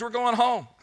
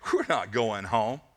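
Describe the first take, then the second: First: High, elated cry of good news; excited. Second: Low, slow flat refusal; negative, dismissive. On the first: Freed captive telling the doubters the news, excited. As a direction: announce it with rising joy. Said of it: "what's all the excitement about". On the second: Naysayer answering the hopeful returnee, dismissive. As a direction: pour cold water on the hope, slowly. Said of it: "there were negative people there". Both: Acted.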